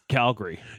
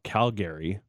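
First: It is said the way locals pronounce it. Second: It is said the way outsiders pronounce it. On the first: The speaker is from the city. The speaker calls it right. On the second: The speaker is not from the city. The speaker calls it wrong.

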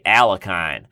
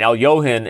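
First: The name is said with an American pronunciation. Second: The name is said with a Russian pronunciation. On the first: The speaker calls it wrong. "Americans say Alekhine" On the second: The speaker calls it right. "Alyohin is spelled Alekhine"

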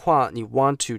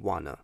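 First: Both words are said in full, separately. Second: The words are run together into one quick word. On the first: "你want to 讲快的时候" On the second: "就会变wanna"

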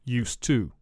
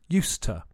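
First: The words are separate with a full 'to'. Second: The words run together with a weak 'to'. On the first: The speaker calls it wrong. "rather than used to" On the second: The speaker calls it right. "It joins together with the to, and the to is weak, so the phrase becomes used to"

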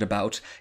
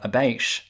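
First: The final t is a short, plain stop. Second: The final t becomes a long sh sound. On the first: "I would pronounce it about" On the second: "some people might pronounce that abaish"

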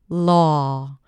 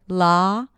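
First: The vowel is said with slightly rounded lips. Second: The vowel is said with relaxed, unrounded lips.

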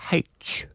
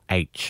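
First: The letter name starts with an h sound. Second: The letter name starts with a vowel sound.

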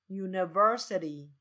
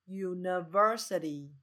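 Both takes have the same delivery.

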